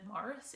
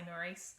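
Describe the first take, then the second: First: The name is said like Morris. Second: The name is said like Maurice. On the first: This is how it is said in some countries. "they pronounce it Morris in some countries" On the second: This is how the speaker says it. "but I say Maurice"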